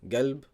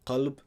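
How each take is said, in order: First: The word begins with a hard g sound. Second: The word begins with a deep q sound.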